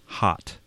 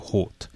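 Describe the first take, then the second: First: The vowel is an open 'ah' sound. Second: The vowel is a closed, rounded 'oh' sound. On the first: The speaker calls it right. "opening up your mouth, opening up your throat, and saying hot" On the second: The speaker calls it wrong. "close your mouth, close your throat to say hot"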